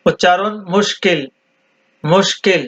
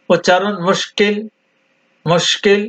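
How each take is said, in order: Both takes have the same delivery.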